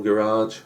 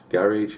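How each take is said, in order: First: Garage as guh-RAHZH, stress on the last syllable; mispronounced garage. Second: Garage as GARR-idge, stress on the first syllable; corrected garage. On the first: Narrator stumbles on Garage, saying guh-RAHZH. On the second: Narrator corrects himself, saying Garage as GARR-idge. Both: Shown as a demonstration. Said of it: "sorry, I can't say garage".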